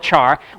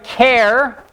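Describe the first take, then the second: First: It begins with a ch sound, like charcoal. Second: It begins with a k sound, like care. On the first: "we don't call it a char" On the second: "like the first syllable in character"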